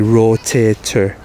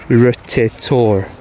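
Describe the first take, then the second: First: The last syllable is a weak 'ter'. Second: The last syllable is a full 'tor'. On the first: "you still say rotator" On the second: "You're not saying rotator"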